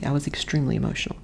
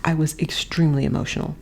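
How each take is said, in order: First: "extremely" leaned on, lower and softer, faster; weight on extremely. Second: Said in the usual way. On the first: Shown as a demonstration. Correcting "overly" to her viewers, stress on "extremely". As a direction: settle firmly on "extremely". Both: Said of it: "not overly".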